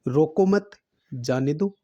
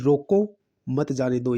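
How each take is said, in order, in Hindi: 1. दूसरे शब्द के बाद विराम है। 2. पहले शब्द के बाद विराम है। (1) "यानी कि रोकना नहीं है, जाने दो" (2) "यानी किसी को मत जाने दो"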